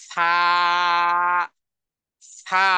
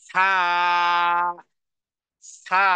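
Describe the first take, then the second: No difference in how they are said.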